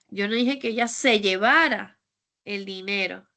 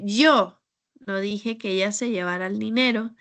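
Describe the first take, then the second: First: The word 'llevara' carries the main stress. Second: The word 'yo' carries the main stress. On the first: She did something else with the money. "Es que tal vez se lo gastó o hizo otra" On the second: Someone other than the speaker said it. "porque tal vez no fui yo, yo no fui quien dijo eso"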